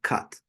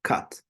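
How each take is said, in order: First: The vowel is a short uh sound. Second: The vowel is a short uh sound.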